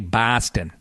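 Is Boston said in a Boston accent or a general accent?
general. The first vowel is a plain, non-Boston sound. The speaker calls it wrong. "We don't say Boston"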